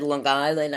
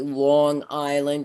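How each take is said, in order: First: The two words are run together as one. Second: The two words are said separately. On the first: This is how true New Yorkers say it. "It's like one word for us" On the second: This is not how New Yorkers say it. "New Yorkers don't say it that way"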